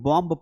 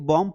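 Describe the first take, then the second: First: The final b sound is pronounced. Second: The final b sound is left out. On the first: The speaker calls it wrong. "अगर आपने बॉम्ब पढ़ा तो गलत हो जाएगा" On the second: The speaker calls it right. "आपको इसे बॉम्ब पढ़ना है"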